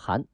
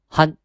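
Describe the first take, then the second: First: It is said with a rising second tone. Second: It is said with a high level first tone. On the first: This is the reading used in standard Chinese. "读二声" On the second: This is the reading used in Manchu. "其实满语呢是一声汉"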